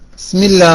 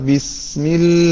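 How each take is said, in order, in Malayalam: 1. ആരംഭത്തിലെ 'b' ശബ്ദം ദുർബലമാണ്, ഏതാണ്ട് കേൾക്കാനാവില്ല. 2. താടി താഴ്ത്തി ആരംഭത്തിലെ 'bi' വ്യക്തമായി ഉച്ചരിക്കുന്നു. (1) "സാധാരണഗതിയിൽ ... ബിസ്മില്ല ബിസ്മില്ല എന്നാ പറയുന്നത് അല്ലെ? അപ്പൊ ഏതക്ഷര പോയത്?" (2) "താടിയുടെ ഭാഗം ഒന്ന് താഴണം, എന്നാലേ കെസറുള്ള ബി വരുള്ളൂ"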